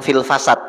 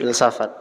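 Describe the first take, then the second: First: The syllables are swapped, said as fil-fa-sat. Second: The syllables are said as fil-sa-fat. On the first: The speaker calls it wrong. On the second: The speaker calls it right.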